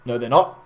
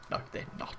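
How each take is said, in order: First: Said in the usual way. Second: Whispered, mocking dismissal. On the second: Villagers brushing Gandalf off, whispered. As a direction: breathe it out with no voice.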